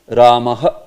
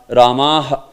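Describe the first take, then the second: No difference in how they are said.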